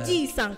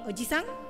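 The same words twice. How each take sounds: First: The vowel after the j is held long. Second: The vowel after the j is short. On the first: It means grandfather. "ketika J-nya dibacanya naik, itu jadinya kakek" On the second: It means uncle. "Kalau oji-san paman"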